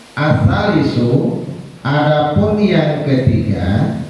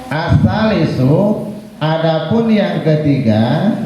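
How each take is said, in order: No difference in how they are said.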